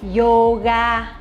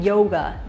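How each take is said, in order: First: It is said with a Vietnamese accent. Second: It is said with an English accent.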